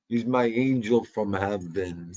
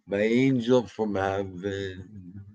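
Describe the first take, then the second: First: Said in the usual way. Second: Slow, tender repeat of angel from heaven. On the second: Shown as a demonstration. Doting owner slowly repeating praise of his dog James, tender. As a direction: linger lovingly on the phrase.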